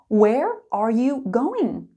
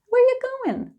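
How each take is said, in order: First: It is spoken slowly with every word clear. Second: It is spoken quickly, dropping the word are. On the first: "Slow and clear" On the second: "when we're speaking quickly, we often remove that auxiliary verb"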